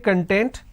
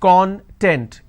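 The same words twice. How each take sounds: First: The stress is on the second syllable. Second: The stress is on the first syllable. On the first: It means being happy. "this means being happy" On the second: It means ingredient or index. "When I pronounce this as con"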